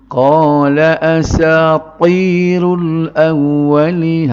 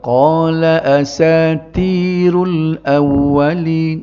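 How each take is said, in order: First: The t sound is heavy and thick. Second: The t sound is light and plain. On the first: The speaker calls it right. "Hak dia naknya ... Boleh tak berat?" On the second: The speaker calls it wrong. "Kalau tak perasan dia jadi huruf ta biasa ni"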